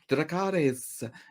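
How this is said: It is said with Rhaenyra's Valyrian accent.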